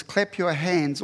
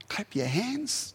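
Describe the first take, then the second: First: Said in the usual way. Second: Slow, softer, higher, with a rise at the end of "hands"; drawn-out repeat. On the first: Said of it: "Psalm forty-seven verse one says". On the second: Shown as a demonstration. Preacher repeats the psalm to contrast with pouting, drawn-out. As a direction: draw out "Clap your hands" after a sigh, lifting the last word. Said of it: "That's not pouting, that's shouting".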